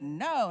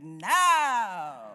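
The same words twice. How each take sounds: First: It is said plainly, without attitude. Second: It is said with sassy attitude.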